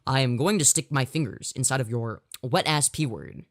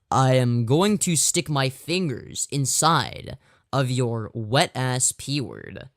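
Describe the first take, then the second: First: It is said very fast. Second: It is said at a normal speed.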